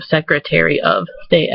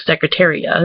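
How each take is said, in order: First: "Secretary of State" with a sounded OF; careful full pronunciation. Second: "Secretaria" with of melted into uh; reduced "of". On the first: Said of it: "instead of". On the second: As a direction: run secretary and of together as Secretaria. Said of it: "I said, like". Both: Shown as a demonstration.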